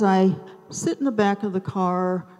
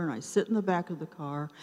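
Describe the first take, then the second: First: Said in the usual way. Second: Quicker, softer, rueful echo; wry repetition. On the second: Real, not acted. Stuck in the car again at dinner: fast, softer rueful echo. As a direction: toss it off wryly, fast and quiet. Repeated line for emphasis.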